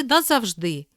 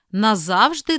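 First: Назавжди as na-zav-ZHDY; last-syllable stress. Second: Назавжди as na-ZAV-zhdy; middle-syllable stress. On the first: Teacher giving the other variant, final stress on назавжди. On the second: Teacher reading double-stress words, middle stress on Назавжди. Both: Shown as a demonstration. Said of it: "слова із подвійним наголосом".

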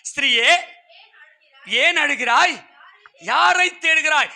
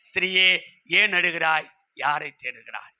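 First: Proclaimed question. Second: Low, gentle, falling away softly; tender question. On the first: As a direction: call the question out to the congregation, slowly. Preacher voices Jesus' question to Mary. (உரக்க, நிறுத்தி நிதானமாகக் கேட்பது) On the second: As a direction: ask it tenderly, sinking lower with each phrase. Same question, now gently to listeners. (கனிவாக, தாழ்ந்த குரலில் கேட்பது) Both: Acted.

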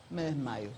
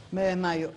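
First: Fainting away. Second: Said in the usual way. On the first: Retold or imitated.

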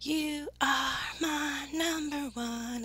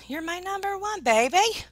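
First: Slow, spaced-out YOU ARE MY NUMBER ONE; slowly stretched declaration of love; emphatic affection. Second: High, excited endearment; high-pitched loving shout-back; gushing affection. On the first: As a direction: draw out each word, higher and softly. Same words repeated for emphasis. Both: Real, not acted.

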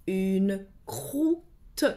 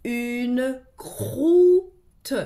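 First: Said in the usual way. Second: "croûte" sounded out louder, with the cr pulled apart; stretched, sounded-out "croûte". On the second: Shown as a demonstration. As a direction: sound out "Une croûte" for a child. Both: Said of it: "Les mots sont des syllabes qui se donnent la main".

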